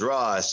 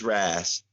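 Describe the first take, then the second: First: The name's vowel sounds like the one in 'boss'. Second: The name's vowel sounds like the one in 'has'. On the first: The speaker calls it wrong. "I thought it was Ross" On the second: The speaker calls it right. "It's Ras"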